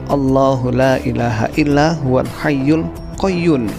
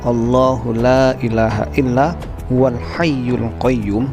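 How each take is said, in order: First: The nasal sound is pronounced as an n. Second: The nasal sound is pronounced as an m. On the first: The speaker calls it wrong. "Itu nun sahabat ya, bukan mim" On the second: The speaker calls it right. "seharusnya begitu sahabat ya"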